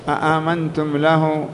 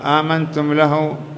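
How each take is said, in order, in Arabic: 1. تبدأ الكلمة بهمزتين. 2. تبدأ الكلمة بهمزة واحدة. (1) "همزة استفهام بعدها ألف، أي أنها همزتان" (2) "هكذا قال آمنتم له"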